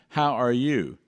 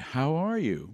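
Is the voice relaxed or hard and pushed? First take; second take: hard; relaxed. First: The voice is hard, pushed and squeezed. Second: The voice is relaxed, at normal speech level. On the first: The speaker calls it wrong. "We don't say" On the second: The speaker calls it right. "We say"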